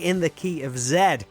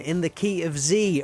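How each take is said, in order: First: The letter Z is said the British way, zed. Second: The letter Z is said the American way, zee.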